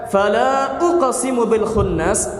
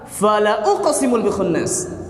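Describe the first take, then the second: First: The vowel after the l is long. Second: The vowel after the l is short. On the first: It reads as a negation: I do not swear. "Kalau kita baca" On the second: It reads as an emphatic oath: I truly swear. "lam yang dibaca pendek"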